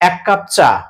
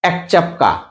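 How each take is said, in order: First: The sounds come in their usual order. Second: The k and ch sounds trade places. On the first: "কেউ বলছে" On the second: "একেবারে অমনোযোগী যখন থাকি"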